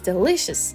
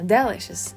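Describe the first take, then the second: First: It is pronounced the standard English way. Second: It is pronounced like the French word. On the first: The speaker calls it right. "but it's delicious" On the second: The speaker calls it wrong. "how I used to say that? ... because in French I said délicieux"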